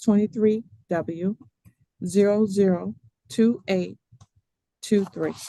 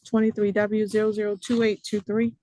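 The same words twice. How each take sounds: First: The number is read out more slowly. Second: The number is read out very quickly.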